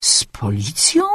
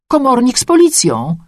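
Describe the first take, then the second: First: Slow, low, hushed echo in disbelief; astonished, whispery query; surprised question. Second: High-pitched neighbour breaking the news; excited, high-voiced announcement; excited report. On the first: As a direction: repeat it slowly, half whispered, rising in surprise. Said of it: "Zdziwiłam się". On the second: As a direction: announce it eagerly, pitched well up. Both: A narrator's reading.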